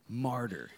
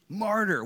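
First: Said in the usual way. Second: MARTYR called out loud and high. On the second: Shown as a demonstration. Preacher correcting the crowd, calling out Martyr loudly. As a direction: proclaim Martyr in a big raised voice. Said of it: "We know martyr means".

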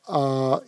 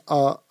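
First: A held longer, as a long vowel. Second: Said in the usual way. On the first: Shown as a demonstration. Teacher showing students the barred vowel, long A. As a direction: draw out the A. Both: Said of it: "vous faites un peu plus long".

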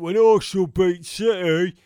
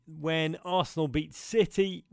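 First: Loud, mocking gloat on Arsenal; gloating mate. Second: Said in the usual way. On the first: Mimicking his gloating Arsenal mate, loud mock crowing. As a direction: crow it like a smug rival fan. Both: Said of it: "or as he said".

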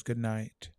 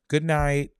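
First: Said in the usual way. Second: Jamaican greeting. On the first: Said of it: "She says". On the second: Retold or imitated. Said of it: "you be like".

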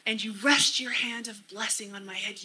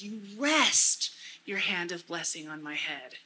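First: Said in the usual way. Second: REST leaned on and held, then settling down; stress on REST. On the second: Shown as a demonstration. Speaker praying the verse to Jesus, stressing REST. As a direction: dwell on the word REST. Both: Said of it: "emphasizing different words to really get that".

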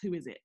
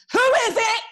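First: "Who is it?" dropped low and softer; mock deep doorstep voice; lower baritone voice. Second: "Who is it?" barked high and loud; militant voice. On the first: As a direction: answer the door in a put-on deep voice. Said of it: "put on a lower baritone voice". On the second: Retold or imitated. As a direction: challenge whoever is at the door. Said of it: "I've gotta put on that militant voice".

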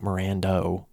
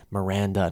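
First: Mirando ending in "oh"; mistaken pronunciation. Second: Miranda ending in an open "ah"; correct pronunciation. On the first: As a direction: say Mirando with a final "doh". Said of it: "Why do I always say Mirando?". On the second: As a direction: say Miranda with a final "duh", no "oh". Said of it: "not Mirando". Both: Shown as a demonstration.

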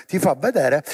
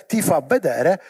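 The two takes are said the same way.

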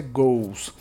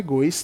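First: "goes" said as one syllable, like Portuguese gols; "goes" as a single syllable, rhyming with gols; "goes" in one clean syllable, like gols; correct pronunciation. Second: "goes" said wrongly as two syllables, go-is; "goes" split into go-is, the learner's error; wrong pronunciation. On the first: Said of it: "Como se fosse dois gols do seu time". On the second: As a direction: stretch "goes" into go-is, the mistake to avoid. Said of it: "A pronúncia não é goes". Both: Shown as a demonstration.

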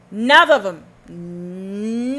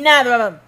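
First: 1 drawn-out denial. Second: 1 loud denial. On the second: Louder quick repeat. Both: Real, not acted.

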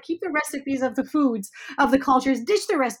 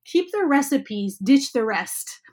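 First: "Keep the recipes" higher and lively, "ditch the rest" punched high; brighter emphatic repeat. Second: "keep the recipes" slow and weighted, "ditch the rest" stressed and louder; slow conspiratorial emphasis. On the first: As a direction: lean hard on "ditch" in a bright voice. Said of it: "and I say". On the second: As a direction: lean on "ditch" slowly. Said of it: "Don't say this outside of the class". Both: Retold or imitated.

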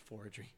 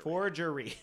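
First: Said in the usual way. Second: "Forgery" in three separate syllables, for-jer-ee, higher; overcareful pronunciation. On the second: Real, not acted. Host finally getting "Forgery" out, overcareful for-jer-ee. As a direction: sound out "Forgery" syllable by syllable, pitched up. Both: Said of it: "that took me three times to get there".

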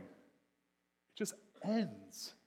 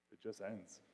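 First: "ends" high and long drawn out; slow, incredulous stress on "ends"; dismayed emphasis on ENDS. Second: Said in the usual way. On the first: Shown as a demonstration. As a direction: stretch "ends" right out, falling in pitch. Repeats it in stark contrast.

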